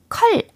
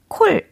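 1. 모음은 짧은 uh 소리예요. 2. 모음은 입술을 둥글게 오므린 o 소리예요. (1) "컬 아닙니다" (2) "콜이 아닙니다"

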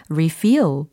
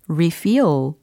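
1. 강세는 두 번째 음절에 있습니다. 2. 강세는 두 번째 음절에 있습니다.

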